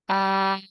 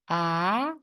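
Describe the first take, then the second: First: The pitch stays high and level. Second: The pitch rises from middle to high. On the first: "How to say the first tone?" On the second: "And how about the second one?"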